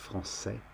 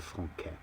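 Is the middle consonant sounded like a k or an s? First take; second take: s; k. First: The middle consonant is a soft s sound. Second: The middle consonant is a hard k sound. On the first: The speaker calls it right. "it makes the C sound like an S, so it softens the C" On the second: The speaker calls it wrong. "rather than"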